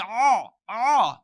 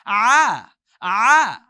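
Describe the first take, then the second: First: Loud "Oh, oh." pushed; the wrong pushed sound; wrong heavy oh. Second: "Ah, ah." loud from the throat, lifted; lifted Arabic ayn. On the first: Teacher shows the wrong way, loud. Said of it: "you'll never say". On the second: Teacher shows the lifted throat sound, loud. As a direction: open the throat and lift the ah. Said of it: "You're gonna lift and say". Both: Shown as a demonstration.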